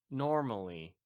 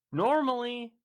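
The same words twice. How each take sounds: First: Said in the usual way. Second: NORMALLY held high and loud. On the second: Real, not acted. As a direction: stretch NORMALLY on a high, level note. Stretches the first take for effect.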